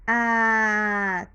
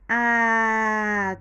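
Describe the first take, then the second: No difference in how they are said.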